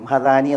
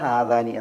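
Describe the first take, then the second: First: The first vowel is short. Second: The first vowel is long. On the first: The speaker calls it wrong. "ഹദാനി എന്നാകാൻ പാടുള്ളതല്ല" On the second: The speaker calls it right. "ഹാദാനി എന്നാകണം"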